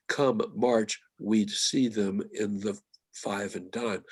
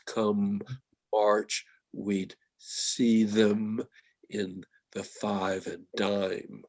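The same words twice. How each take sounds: First: Said in the usual way. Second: "Come" and "March" split apart, with the m of "Come" held long and "dime" stretched slowly through the nose; nasal sounds drawn out. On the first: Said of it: "That first line". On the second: Shown as a demonstration. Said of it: "nasal sounds".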